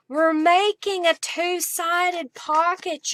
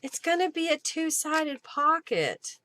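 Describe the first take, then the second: First: Slow, higher, stressing "making" and "two-sided"; a teasing slow reveal; emphatic reveal. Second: Said in the usual way. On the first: Real, not acted. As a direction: spell out "two-sided pocket" slowly with weight. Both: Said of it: "Have you caught on?".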